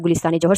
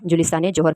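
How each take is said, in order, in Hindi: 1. यह नाम g ध्वनि से शुरू होता है। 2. यह नाम j ध्वनि से शुरू होता है।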